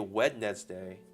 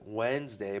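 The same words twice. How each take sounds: First: It is said with the D sound pronounced. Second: It is said without a D sound. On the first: "but it's actually Wednesday. The D is before the N" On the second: "the N is before the D when you pronounce it Wednesday"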